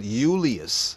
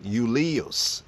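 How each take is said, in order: The two takes are said the same way.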